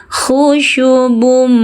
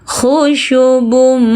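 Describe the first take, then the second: No difference in how they are said.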